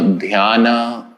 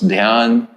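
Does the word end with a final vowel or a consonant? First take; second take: vowel; consonant. First: The word ends with an added a vowel. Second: The word ends on the consonant n.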